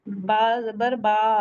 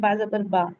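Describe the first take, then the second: First: The final vowel is stretched over two counts. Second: The final vowel is held for one count. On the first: "ये एक हरकत से ज्यादा लंबी हो गई" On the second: "जैसे हम पढ़ते हैं"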